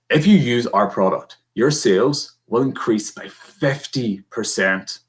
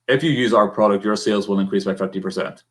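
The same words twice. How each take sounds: First: The words fifty percent carry strong emphasis. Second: It is flat, with no emphasis anywhere. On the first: "Emphasis on the word fifty percent" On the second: "really with no real inflection in my voice"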